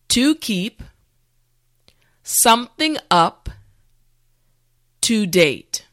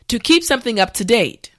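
First: The phrase is said slowly and carefully. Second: The phrase is said at normal speed. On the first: "repeat after me" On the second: "now let's say it at a normal pace"

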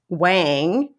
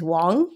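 First: The vowel rhymes with hang or bang. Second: The vowel rhymes with long or song. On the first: This is the spelling-based American pronunciation. "which is the American way of pronouncing it" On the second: This is the original Mandarin pronunciation. "the actual pronunciation is Wang, like rhyming with the English words long or song"

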